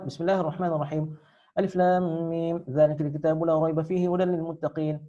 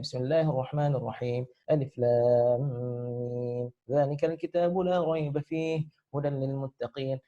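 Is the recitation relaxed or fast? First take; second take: fast; relaxed. First: It is recited at a fast pace. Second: It is recited at a relaxed pace.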